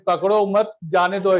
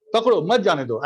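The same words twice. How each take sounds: First: पकड़ो मत run together, then जाने दो slowly; misplaced pause after मत. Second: पकड़ो set apart, मत जाने दो as one group; group मत with जाने दो, split off पकड़ो; intended phrasing, break after पकड़ो. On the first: Teacher showing what was mistakenly said, पकड़ो मत joined. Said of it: "ऐसा बोल दिया". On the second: Teacher explaining what he meant to say, break after पकड़ो. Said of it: "ऐसा बोलना चाह रहा था". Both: Shown as a demonstration.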